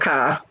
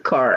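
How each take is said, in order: First: The final r sound is dropped. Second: The final r sound is clearly pronounced. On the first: This is how people with a Boston accent say it. "I don't say beer or car" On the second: This is how the speaker normally says it. "I say beer, car, and park"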